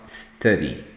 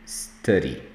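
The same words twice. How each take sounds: Both takes have the same delivery.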